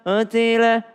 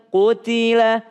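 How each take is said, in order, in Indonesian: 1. Vokal pertama ragu-ragu dan dibulatkan dengan lemah. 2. Vokal pertama jelas dibulatkan dengan bibir maju. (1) "kalau ragu-ragu bunyinya seperti qutila" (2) "majuin aja bibirnya"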